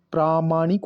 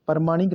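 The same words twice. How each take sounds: First: प्रामाणिक with long opening "praa"; correct form. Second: प्रमाणिक with short first a; wrong form. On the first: Teacher showing the added vowel: प्रामाणिक with long "praa". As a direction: say "praa-maa-nik" for प्रामाणिक. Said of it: "आ की मात्रा आएगी". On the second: Teacher rejecting the wrong form: प्रमाणिक with short first vowel. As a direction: say "par-maa-nik" for प्रमाणिक. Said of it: "नहीं". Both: Shown as a demonstration.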